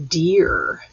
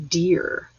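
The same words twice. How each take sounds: First: Deer said firmly and a bit louder with a falling tune; teacher modelling deer, firm and clear; clear model word. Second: Said in the usual way. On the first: Shown as a demonstration. Teacher showing the class how to say deer, firm falling tune. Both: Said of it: "Say that with me".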